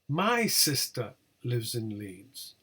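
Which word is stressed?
My. The word my carries the main stress. It is my sister, not yours, who lives there. "not yours"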